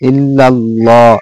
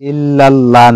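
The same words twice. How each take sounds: First: The L sound in Allah is heavy and full. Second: The L sound in Allah is light and thin. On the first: The speaker calls it right. "লাম পুর হবে মোটা হবে" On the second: The speaker calls it wrong. "না"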